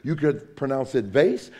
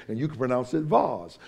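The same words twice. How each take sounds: First: "vase" with an ay sound and s ending; plain everyday "vase", like base; vase rhyming with face. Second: "vase" with a broad ah; vase said as vahz. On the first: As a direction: say "vase" as vayss. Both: Shown as a demonstration. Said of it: "You could do it either way".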